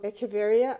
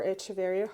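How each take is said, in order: First: Echeveria with a hard K, "eh-keh-VEH-ree-a"; hard K pronunciation. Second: Echeveria with a CH as in cheese; Echeveria, the "ch" said as in church; soft CH pronunciation. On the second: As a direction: say Echeveria as "etch-uh-VAIR-ee-uh". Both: Shown as a demonstration. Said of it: "however you pronounce it".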